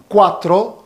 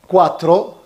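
The two takes are said the same way.

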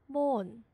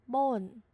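Both takes have the same delivery.

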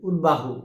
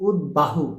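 The two takes are said the same way.

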